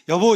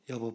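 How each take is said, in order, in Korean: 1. 목소리를 높여서 짜증 섞인 톤으로 말합니다. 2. 차분하고 일정한 톤으로 말합니다. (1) "톤이 막 올라갑니다" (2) "똑같은 톤으로"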